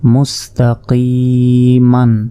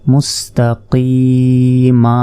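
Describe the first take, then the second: First: The word ends with an n sound. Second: The word ends with a long a vowel. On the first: The reading continues without stopping. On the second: The reader stops on this word.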